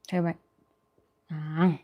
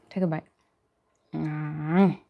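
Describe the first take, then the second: No difference in how they are said.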